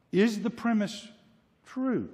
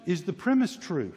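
First: "Is the premise", long pause, then "true" high and falling; pause before TRUE. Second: Said in the usual way. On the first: Shown as a demonstration. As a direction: isolate "true" after a suspenseful pause. Question repeated for emphasis.

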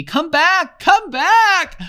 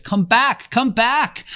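First: Much higher, louder, frantic scream; insane scream. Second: Desperate high scream. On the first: Boy screaming insanely at the vanished ship, frantic. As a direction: voice rising out of control. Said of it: "his voice rose insanely". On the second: Boy screaming at a departing ship, desperate. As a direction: scream after the ship as it leaves. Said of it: "and screamed at the ship". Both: A narrator's reading.

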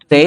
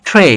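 First: Said in the usual way. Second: ট্রে with a puffed t, "thray"; aspirated T. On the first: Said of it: "টি এর উচ্চারণটা ঠ". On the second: Shown as a demonstration. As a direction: burst air into ট্রে. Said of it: "ঠ এর মতো হবে". (ট্রে-কে "ঠ্রে" উচ্চারণ)

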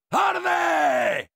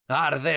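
First: High, drawn-out yell; battle yell. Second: Said in the usual way. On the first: Acted. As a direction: scream it at the enemy as they burn. Yells burn at enemy with flamethrower.

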